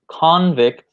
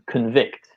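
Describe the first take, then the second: First: The stress is on the first syllable. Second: The stress is on the second syllable. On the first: It names a person who was sent to prison. "the noun convict" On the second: It is the action of finding someone guilty. "the emphasis is changed for the second part"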